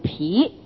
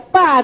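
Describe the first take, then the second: First: The syllable is pronounced pi. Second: The syllable is pronounced ba. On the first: The speaker calls it right. "我们在这里要读疲，跟那个疲劳的疲字相通" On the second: The speaker calls it wrong. "不要读成霸字"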